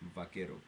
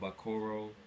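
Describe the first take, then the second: First: The r is a quick tap like d. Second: The r is an English-style r. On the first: The speaker calls it right. "think of uh, the R as a D" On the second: The speaker calls it wrong. "A lot of people that don't speak Spanish do it. They uh, pronounce it the Vaquero"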